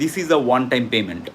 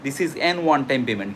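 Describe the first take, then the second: First: Slow "a one time payment", with a plain a; the right form, "a one", spoken deliberately; correct article. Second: Slow "an one time payment", said with an; the wrong form, "an one", spoken deliberately; wrong article. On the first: Teacher giving students the correct example slowly. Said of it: "এন one time payment হয় না". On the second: Teacher giving students the incorrect example slowly. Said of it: "কিন্তু না।". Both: Shown as a demonstration.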